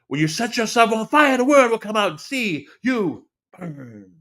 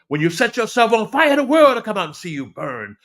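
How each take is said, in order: First: It is said loudly and slowly. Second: It is said loudly and fast.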